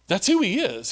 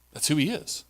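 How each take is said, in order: First: Higher, falling on who; emphatic repeat. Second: Much softer, settled declaration; quiet statement. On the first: Preacher insisting on who Satan is, emphatic. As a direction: repeat it with rising conviction. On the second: Preacher naming Satan as a liar, quiet and firm. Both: Shown as a demonstration.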